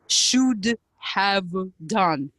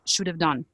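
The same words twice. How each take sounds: First: Each word is said fully and separately. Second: 'Have' is reduced and joined onto 'should'. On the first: "they wouldn't say should have done in real speech" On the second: "It would be"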